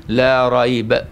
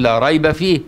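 First: "لا ريب" recited with a clean stop right after ريب; pause after ريب. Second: "لا ريب فيه" read as one phrase with a full stop right after فيه; pause after فيه. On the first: Teacher showing the other stop, right after ريب. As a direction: say لا ريب and halt there, leaving فيه for the next phrase. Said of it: "وتقف". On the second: Teacher showing a student the stop after فيه. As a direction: recite لا ريب فيه, then halt on فيه before going on. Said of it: "ما انت ممكن تقول". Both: Shown as a demonstration.

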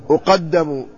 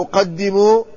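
First: أقدم with an a after the doubled d, uqaddamu; variant vowel reading. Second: أقدم with an i after the doubled d, uqaddimu; kasra on dal. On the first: Teacher trying a variant reading of the hadith word, أقدم as uqaddamu. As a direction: say أقدم as passive uqaddamu, falling at the end. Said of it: "أو أقدم". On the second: Teacher offering the other reading of the hadith word, أقدم as uqaddimu. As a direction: say أقدم as uqaddimu, rising at the end. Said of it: "ضبطناه بضم الهمزة وفتح القاف وكسر". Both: Shown as a demonstration.

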